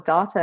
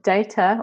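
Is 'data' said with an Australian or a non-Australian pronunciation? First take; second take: Australian; non-Australian. First: It is said with an Australian pronunciation. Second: It is said with a non-Australian pronunciation.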